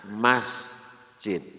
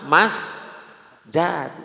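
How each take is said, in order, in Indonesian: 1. Suku kata kedua pakai vokal 'i'. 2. Suku kata kedua pakai vokal 'a'. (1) "Yang enak didengar mah masjid" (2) "Nu bener mah mas jad, cuman nggak enak didengar"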